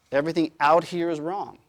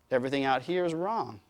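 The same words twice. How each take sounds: First: Mock dogmatic. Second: Said in the usual way. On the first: Mocking closed system mindset.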